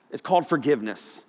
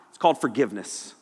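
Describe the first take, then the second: No difference in how they are said.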